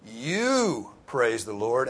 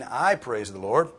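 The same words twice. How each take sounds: First: "you" drawn out long and loud; emphatic YOU. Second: "I" leaned on, loud and slow; slow, loud line with weight on "I"; stress on I. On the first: Preacher turning the command on the congregation, emphatic stress on "you". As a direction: punch and stretch "you", then on through the line. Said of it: "and it's emphatic". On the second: Preacher giving the congregation the wrong reading, stress on "I". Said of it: "It does not mean". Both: Shown as a demonstration.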